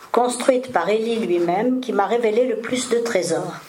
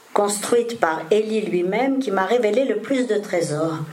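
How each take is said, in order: Both takes have the same delivery.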